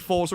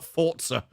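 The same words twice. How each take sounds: First: The middle consonant is a plain z sound. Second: The middle consonant is a ts sound. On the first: The speaker calls it right. "Forza will always be Forza" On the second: The speaker calls it wrong. "not Forza. If you want it called Forza, put a T in it"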